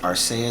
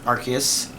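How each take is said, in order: First: It is said with the Japanese pronunciation. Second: It is said with the English pronunciation. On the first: "the Japanese is pronounced Arceus" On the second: "it's kind of officially called that in English"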